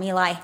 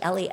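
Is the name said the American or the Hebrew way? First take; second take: American; Hebrew. First: The name is said with American pronunciation. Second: The name is said with Hebrew pronunciation. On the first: "he's in America now. We call him Eli" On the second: "It's actually Eli, I was corrected this week by someone who knows Hebrew"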